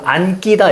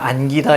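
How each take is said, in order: First: The g sound is tense and doubled. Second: The g sound is plain and lax. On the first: The speaker calls it wrong. "안끼다 이렇게 소리 안, 안 납니다" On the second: The speaker calls it right. "얘는 그냥 안기다 이렇게 소리가 납니다"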